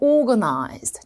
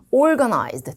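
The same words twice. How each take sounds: First: It is said with a British accent. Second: It is said with a non-British, American accent.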